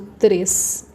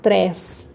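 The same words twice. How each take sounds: First: The vowel is closed and said further back. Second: The vowel is open and said more forward. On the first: The speaker calls it right. "Eu falo três, se eu falo mais para dentro, mais baixinho" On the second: The speaker calls it wrong. "eu não falo três. Três é uma palavra que nem existe"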